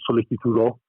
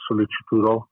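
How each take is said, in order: First: It is said in classical Latin pronunciation. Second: It is said in ecclesiastical Latin pronunciation.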